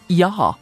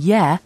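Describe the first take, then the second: First: It is said in a posh accent. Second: It is said in a plain, ordinary accent. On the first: "turns into yah" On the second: "saying yeah"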